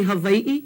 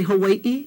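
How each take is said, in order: First: "Hawaii" said ha-vai-ee; "Hawaii" with a V in the middle; V sound. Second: "Hawaii" said ha-wai-ee; "Hawaii" with a W in the middle; W sound. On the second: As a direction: keep the w glide in "Hawaii". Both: Shown as a demonstration. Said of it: "But V sounds".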